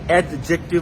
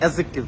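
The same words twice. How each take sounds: First: The syllables are pulled apart from each other. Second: The syllables are joined smoothly together. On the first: The speaker calls it wrong. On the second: The speaker calls it right.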